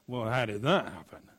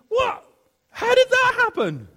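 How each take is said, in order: First: It sounds cynical and doubting. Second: It sounds genuinely amazed.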